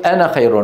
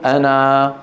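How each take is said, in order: First: Short-vowelled أنا flowing into the next word; linked reading. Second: أنا drawn out on a level final alif; pausal reading. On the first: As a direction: say أنا with a short final a, running straight into خير. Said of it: "بالوصل". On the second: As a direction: say أنا with a long held final aa. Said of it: "بالوقف شو بنقول؟". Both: Shown as a demonstration.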